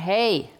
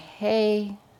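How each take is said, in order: First: It is said louder and more insistently. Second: It is said softly and gently.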